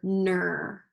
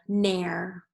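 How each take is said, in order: First: The vowel sounds like er in her. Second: The vowel sounds like air in hair. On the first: "let's do this one with E R" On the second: "let's try it with air"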